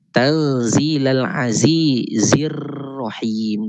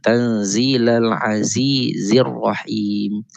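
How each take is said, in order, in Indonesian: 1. Huruf r digetarkan dengan kuat. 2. Huruf r digetarkan dengan ringan. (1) "Kita tidak baca tanzilal azizir rahim" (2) "getaran yang tidak melampau"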